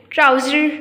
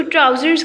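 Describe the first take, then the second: First: "ट्राउज़र" with no final S; incorrect singular form. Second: "ट्राउज़र्स" with a final Z-like S; correct plural ending. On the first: Teacher showing what not to say, ट्राउज़र without final S. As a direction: end "ट्राउज़र" on the R. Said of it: "ट्राउज़र नहीं कहते इसको". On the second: Teacher giving the right form, final S sounded in ट्राउज़र्स. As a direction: finish "ट्राउज़र्स" on a buzzed S. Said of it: "ट्राउज़र्स कहते हैं". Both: Shown as a demonstration.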